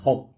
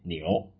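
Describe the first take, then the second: First: The syllable is pronounced hum. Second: The syllable is pronounced niu. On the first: The speaker calls it right. "要念吽" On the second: The speaker calls it wrong. "不可以念牛"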